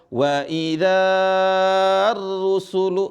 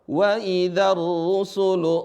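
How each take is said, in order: First: The vowel before the alif is held long. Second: The vowel before the alif is kept short. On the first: The speaker calls it wrong. "bukan dibaca" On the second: The speaker calls it right. "Tapi langsung apa?"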